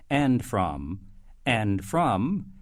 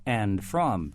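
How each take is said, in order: First: "and from" with a rising lilt; "and from," ending upward each time. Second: "and from" settling down to a fall; falling announcer "and from". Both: Shown as a demonstration. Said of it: "when I use the force to say".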